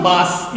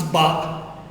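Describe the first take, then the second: First: "bas" with the final s sounded, like "bahs"; wrong pronunciation. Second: "ba" with a silent s, just "bah"; correct French pronunciation. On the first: Teacher shows the pronunciation to avoid: "bas" with a sounded s. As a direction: say "bas" wrongly, ending on a clear s. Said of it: "It's not bas". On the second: Teacher shows students the right way: "ba" with the s silent. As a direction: say "ba" with no s at the end. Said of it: "It's not bas, it's ba". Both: Shown as a demonstration.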